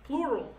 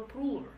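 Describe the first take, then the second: First: Plural said clearly as "ploo-ral"; corrected pronunciation. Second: Plural with its r and l muddled; stumbled pronunciation. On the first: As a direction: firmly restate plural, r before l. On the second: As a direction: trip over plural, like "pluler". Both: Real, not acted. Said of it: "what's happened to my English today".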